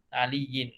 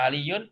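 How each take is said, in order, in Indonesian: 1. Kata ini berakhir dengan bunyi -in. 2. Kata ini berakhir dengan bunyi -un. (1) "betulkan baris tu" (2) "bukan aliyun"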